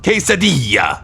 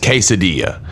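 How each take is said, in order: First: The word is exaggerated with an almost Italian sound. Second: The word is said plainly, without exaggeration. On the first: "it sounds almost Italian... It's like an over pronunciation" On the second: "I say quesadilla. Just quesadilla"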